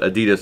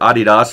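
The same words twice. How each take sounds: First: The name is said the usual American way. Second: The name is said the European way.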